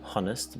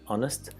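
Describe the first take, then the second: First: The word begins with a sounded H. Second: The word begins with a silent H. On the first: The speaker calls it wrong. "not honest" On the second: The speaker calls it right. "it's a silent H"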